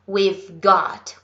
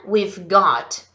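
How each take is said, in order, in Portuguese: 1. As palavras we have são contraídas para we've. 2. As palavras we have são contraídas para we've.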